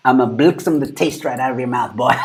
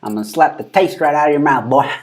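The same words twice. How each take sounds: First: Playful threat with a South African twang. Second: Raised, louder catchphrase imitation; mock threat. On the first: Pretend. Streamer making it South African, mock threat in South African twang. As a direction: put a bit of South African accent on the threat. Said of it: "Give it, like, a South African twang". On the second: Streamer repeating the woman's line, playful mock threat. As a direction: throw out her threat for laughs.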